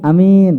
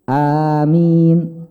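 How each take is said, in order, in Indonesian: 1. Vokal pertama pendek, tidak dipanjangkan. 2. Vokal pertama ditahan selama dua ketukan. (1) "itu nama orang ya" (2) "a-nya dua harokat"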